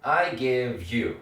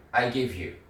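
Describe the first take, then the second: First: Very slow, stretched out; slow drill. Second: Said in the usual way. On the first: Shown as a demonstration. Teacher modeling slowly for learners. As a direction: spell it out slowly for the class. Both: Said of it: "그래서 I give you".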